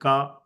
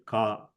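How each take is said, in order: First: The syllable is said at a high pitch. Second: The syllable is said at a low pitch. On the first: "the higher pitch"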